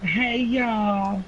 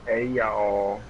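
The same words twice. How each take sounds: First: Flirty Southern hello; drawled Southern greeting; southern accent. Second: Southern drawl greeting; friendly Southern hello; southern accent. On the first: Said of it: "It sounds very flirtatious". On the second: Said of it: "That's my best southern accent". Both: Pretend.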